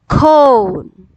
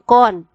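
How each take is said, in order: First: The vowel is a long O sound. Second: The vowel is a short O sound. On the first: The speaker calls it right. "the O here is long O" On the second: The speaker calls it wrong. "It's not con"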